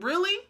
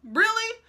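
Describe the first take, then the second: First: A doubting, raised-pitch really; a pointed really with raised eyebrows; sceptical. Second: Really pitched much higher and louder, utterly unconvinced; a sharp, high, louder really; incredulous. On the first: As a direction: question him with a sceptical look. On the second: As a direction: stare him down in disbelief. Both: Pretend. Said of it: "if he could see my face".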